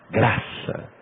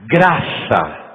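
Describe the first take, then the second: First: Soft breathy whisper of Graça; whispered word. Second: Said in the usual way. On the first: Real, not acted. Preacher repeats key word.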